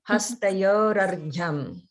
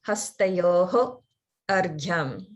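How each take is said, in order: First: The words run together with no pause. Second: The words are split, with a pause between them. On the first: "as long as it's all one continuous thing" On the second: "If you do break them apart, or if you hear someone break them apart, the way they'll say it is"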